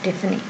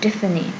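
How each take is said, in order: First: The middle consonant is an f sound. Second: The middle consonant is an f sound.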